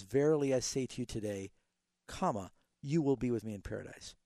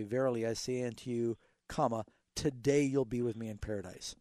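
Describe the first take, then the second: First: "to you today" joined, pause, "comma", then "you will be..."; comma after TODAY. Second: "unto you", pause, "comma", then "today you'll be..." joined; comma before TODAY. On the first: Pastor reading the corrected punctuation to caller, pause after today. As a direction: carry on through "today", break, restart on "you". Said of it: "really in the Greek it says". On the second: Pastor reading King James punctuation to caller, pause before today. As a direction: break after "you", run "today" into "you'll be". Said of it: "in the King James". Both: Shown as a demonstration.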